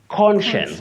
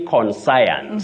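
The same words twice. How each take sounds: First: The second part does not sound like 'science'. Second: The second part sounds like the word 'science'. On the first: The speaker calls it right. "this specific word has no relationship with science ... You say conscience" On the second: The speaker calls it wrong. "don't say conscience"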